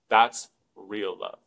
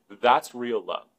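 First: That's real love. drawn out slowly and lower, each word weighted; slow it right down and let That's real love. land; slow emphatic repeat. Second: Said in the usual way. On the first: Shown as a demonstration. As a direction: lower and slower, like a final word. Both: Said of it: "repeated for emphasis".

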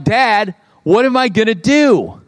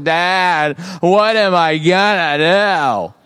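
First: Mock distressed kid, pitch rising; freaking-out kid. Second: Slow, drawn-out mock kid complaint; moping kid. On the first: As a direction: imitate a child's mild freak-out. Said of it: "They're, like, freaking out". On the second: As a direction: stretch out each word like an aimless, complaining kid. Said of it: "walking around the house like".

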